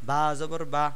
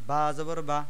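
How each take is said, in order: No difference in how they are said.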